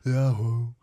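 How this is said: It is said softly, with the end trailing off.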